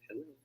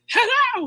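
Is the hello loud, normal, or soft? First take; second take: soft; loud. First: It is said very quietly and weakly. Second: It is shouted at the top of the voice. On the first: "Hindi naman sobrang hina like" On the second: "you're not at the top of your voice, right? ... You don't say that"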